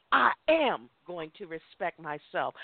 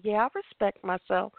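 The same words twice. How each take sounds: First: "I am" pressed firmly, the rest steady and lower; mean it, leaning hard on "I am"; emphasis on I am. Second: Casual, offhand "Yeah, I respect myself." with no weight on "I"; a hollow, going-through-the-motions yes; brushed-off affirmation. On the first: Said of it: "Do it with emphasis". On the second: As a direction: toss the line off as if to make them stop asking. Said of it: "people mask that and just to keep us to shut up". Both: Shown as a demonstration.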